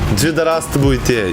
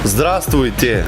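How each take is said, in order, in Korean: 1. 한국식 억양으로 말했어요. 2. 러시아 원어민 억양으로 말했어요.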